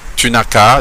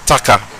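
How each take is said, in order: First: Every word is pronounced fully, including ne. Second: Tu and ne merge into one short syllable. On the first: "tu n'as qu'à devient" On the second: "devient t'as qu'à"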